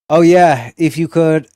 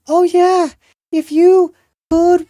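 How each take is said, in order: First: It is read in his normal voice. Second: It is read in a put-on girlish voice.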